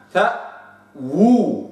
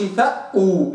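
First: فأو very slow, the waw's damma completed; correct waw demo. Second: فأو with the waw cut short; wrong reading. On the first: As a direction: draw out فأو, rounding the waw fully. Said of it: "هكذا". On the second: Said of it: "ما أقولش". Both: Shown as a demonstration.

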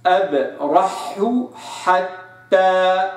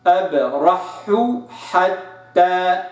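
First: أبرح حتى very slow, each ح clear; separated has. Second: أبرح حتى slow, each ح apart; separated has. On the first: Teacher reciting أبرح حتى, slow and separated. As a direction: keep both ح in أبرح حتى apart. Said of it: "فأقرأ قوله تعالى". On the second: Teacher repeating أبرح حتى, slow and separated. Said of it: "حو، حا". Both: Shown as a demonstration.

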